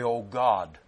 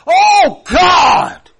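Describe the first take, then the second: First: It is said calmly, without real feeling. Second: It is cried out in anguish.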